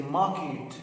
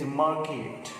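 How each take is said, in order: First: "market" with no r, maket; British market. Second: "market" with a clear r, maɹket; American market. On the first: Teacher models British "market" for students, r dropped. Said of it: "If it is in British English". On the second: Teacher models American "market" for students, r sounded. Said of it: "In American English". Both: Shown as a demonstration.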